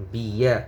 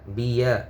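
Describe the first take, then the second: No difference in how they are said.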